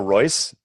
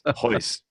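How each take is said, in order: First: The name begins with an R sound. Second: The name begins with an H sound. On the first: The speaker calls it wrong. "spelled with an R" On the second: The speaker calls it right. "it's pronounced as an H"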